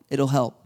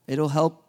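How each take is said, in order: Both takes have the same delivery.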